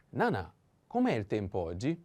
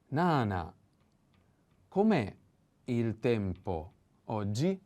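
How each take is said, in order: First: Said in the usual way. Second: Spike "com'è", then ease slowly into "il tempo oggi"; accent on com'è. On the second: Shown as a demonstration. Teacher marking where the accent falls, com'è peaked. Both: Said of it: "pay attention to the accent".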